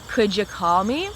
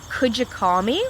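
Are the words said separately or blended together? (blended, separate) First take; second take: blended; blended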